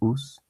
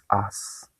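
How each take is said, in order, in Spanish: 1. La vocal es un sonido 'oo' al estilo español. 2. La vocal es un sonido 'uh' al estilo inglés. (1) "lo leerá como en español, dirá us" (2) "y tú dices as"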